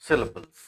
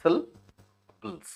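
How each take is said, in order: First: Said in the usual way. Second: SYLLABLES split in two, SYL, pause, BLES; broken into syllables. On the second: Shown as a demonstration. Teacher showing students how the word breaks, syllable by syllable. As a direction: say SYLLABLES slowly in two separate pieces. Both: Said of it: "required to be broken".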